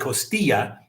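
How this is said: The word is said the Mexican Spanish way. The speaker calls it wrong. "I say costilla because I'm used to like Mexican Spanish"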